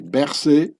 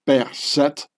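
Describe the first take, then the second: First: The name is said the French way. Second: The name is said the Swiss German way. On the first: "The French pronunciation would be" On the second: "I prefer the demotic pharaonic pronunciation"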